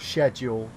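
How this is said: The word is said the English way. "as Dave would put it, um, or as any Englishman would put it"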